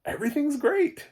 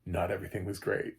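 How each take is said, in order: First: Mock over-cheerful narrator, very high and loud; relentlessly upbeat. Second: Said in the usual way. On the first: Reviewer mimicking the film's too-happy narrator, mock relentlessly upbeat. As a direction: imitate a blindly optimistic voice, pitch soaring. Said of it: "it was so weird. His, it was like".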